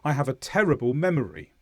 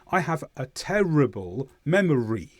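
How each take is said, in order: First: It is said faster with normal emphasis. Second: It is said slowly with strong emphasis. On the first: "We'd normally say that faster" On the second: "I said that with emphasis"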